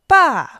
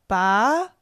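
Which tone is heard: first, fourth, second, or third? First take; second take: fourth; second. First: The pitch falls sharply from high. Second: The pitch rises from mid to high.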